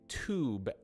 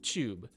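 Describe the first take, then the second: First: It starts with a plain t sound. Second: It starts with a ch-like sound. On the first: "because I am an American English speaker, I say tube and tune" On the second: "if somebody was speaking British English, ... you can hear the kind of chu sound"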